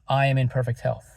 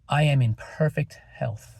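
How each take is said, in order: First: The sentence is said quickly. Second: The sentence is said slowly. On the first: The speaker is hurried or stressed. The speaker calls it wrong. "repeat it to yourself quickly" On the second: The speaker takes time to believe it. The speaker calls it right. "Take a deep breath and say it slowly"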